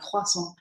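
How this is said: It is said with a French pronunciation. "I'm I'm saying it the French way"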